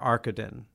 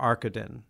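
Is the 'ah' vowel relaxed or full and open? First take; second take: relaxed; relaxed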